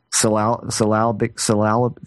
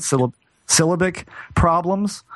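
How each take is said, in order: First: "syllabic" tried as suh-LAL-bik, haltingly; unsure attempts at "syllabic", misplacing an L; fumbled pronunciation. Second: "syllabic" as SIL-uh-bik, stress up front, pitched higher; tentative "syllabic problems", SIL first, questioning lift; corrected pronunciation. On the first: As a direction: stumble over "syllabic", stress on the second syllable. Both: Real, not acted. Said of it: "how do you say that?".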